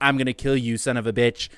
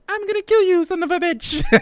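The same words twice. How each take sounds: First: It is said in the speaker's normal voice. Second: It is said in a put-on Mario voice.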